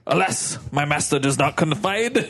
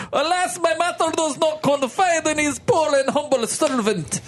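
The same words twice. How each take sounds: First: Said in the usual way. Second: Put-on high hammy Russian accent. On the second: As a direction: play the servant in a thick Russian accent. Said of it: "Russian now".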